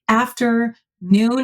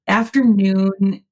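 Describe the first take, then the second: First: It is said as two separate words. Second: It is said as one smooth word. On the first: It describes a feeling or vibe. "if you separate the two words, like after noon" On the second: It is just a noun naming a time of day. "afternoon i- is is a noun"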